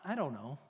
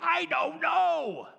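First: It is said flatly, without excitement. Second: It is said with exclamatory energy.

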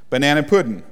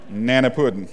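First: Every syllable of both words is said. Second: The first syllable and final g are dropped.

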